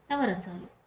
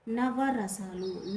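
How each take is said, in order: First: Said in the usual way. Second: నవరసాలు drawn out syllable by syllable, very slowly; slow teaching. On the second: Shown as a demonstration. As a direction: stretch నవరసాలు out slowly for the class. (నవరసాలు నెమ్మదిగా, ఒక్కో అక్షరం విడదీసి) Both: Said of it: "నవ, నవ అంటే ఎంత?".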